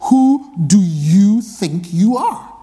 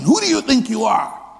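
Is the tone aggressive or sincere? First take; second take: sincere; aggressive. First: It is asked as a sincere question. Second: It is asked with arrogance and aggression.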